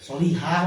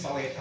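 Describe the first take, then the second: First: The second vowel is a clear i sound. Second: The second vowel is an e sound. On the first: This is the proper Arabic form. "Solihah bahasa Arabnya" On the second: This is the form with the vowel shifted toward e.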